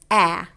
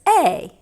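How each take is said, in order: First: The vowel is a short, clipped sound. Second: The vowel sounds like the letter's name. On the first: "A's short sound is A, like apple" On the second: "the long sound for A is A"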